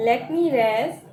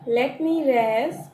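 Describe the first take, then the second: First: Said in the usual way. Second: Slow repeat. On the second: Shown as a demonstration. Teacher slowly repeating the line for students. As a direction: let me rest drawn out slowly.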